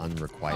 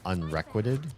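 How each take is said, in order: First: The middle is said like 'requite'. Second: The middle is said like 'requisite'. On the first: The speaker calls it right. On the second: The speaker calls it wrong.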